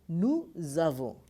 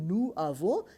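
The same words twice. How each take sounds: First: The s of nous links as z into avons. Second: The s of nous is silent before avons. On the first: The speaker calls it right. "it becomes nous avons" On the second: The speaker calls it wrong. "rather speaking nous avons"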